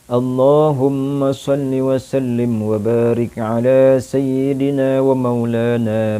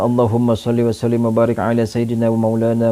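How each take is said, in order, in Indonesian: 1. Kata-katanya dibaca dengan lambat. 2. Kata-katanya dibaca dengan cepat. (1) "Itu secara perlahannya" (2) "bisa dibaca secara cepat"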